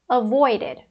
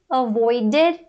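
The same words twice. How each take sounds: First: The ending is said weakly and reduced. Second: The ending is said strongly and fully. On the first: "eu acabo falando mais fraco" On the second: "mais forte"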